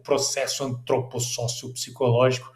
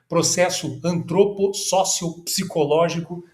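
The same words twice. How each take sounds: First: It is said with an imitated, theatrical intonation. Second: It is read in a plain, ordinary intonation.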